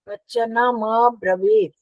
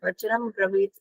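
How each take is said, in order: First: A full 'm' leads into an 'a' before 'bravit'. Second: It goes straight into 'bravit' with no 'a'. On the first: The speaker calls it right. "म पूरा है ना" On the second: The speaker calls it wrong. "नहीं"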